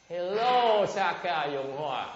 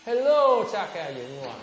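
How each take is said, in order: First: Loud, high mock hello; rude greeting. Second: Much higher and louder hello; mock loud hello. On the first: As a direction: parody a too-casual greeting. (chào hỏi suồng sã kiểu chế giễu) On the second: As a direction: shout the greeting mockingly. (la lớn lời chào chế giễu) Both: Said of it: "look how it started".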